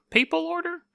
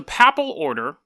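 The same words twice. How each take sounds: First: "papal" said PAY-pul, higher and questioning; papal with long a. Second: "papal" said with a short a, like PAP-ul. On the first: Second try at the word papal. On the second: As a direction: make the first syllable of "papal" rhyme with cap. Corrects his own saying of papal. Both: Real, not acted.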